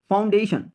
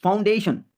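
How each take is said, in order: Both takes have the same delivery.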